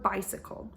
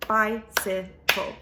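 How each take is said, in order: First: Said in the usual way. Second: Slow, every syllable separated, BI-CY-CLE; clapped out by syllable. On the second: Shown as a demonstration. Teacher clapping syllables for second graders, slow and separated. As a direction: split "Bicycle" into three clear beats, one per clap. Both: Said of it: "I can clap out the sound bicycle".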